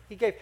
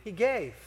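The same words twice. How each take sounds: First: Said in the usual way. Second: Soft answer. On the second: Shown as a demonstration.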